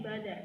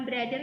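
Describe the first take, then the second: First: "bother" with no r after the b; correct pronunciation. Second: "brother" with an r after the b; wrong pronunciation. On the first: Teacher correcting students, "bother" without an r after b. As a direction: go straight from b to vowel in "bother". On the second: Teacher showing students the slip to avoid, "brother" with an r. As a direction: sound the br- cluster in "brother". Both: Shown as a demonstration. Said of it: "Bukan brother ya, tapi bother".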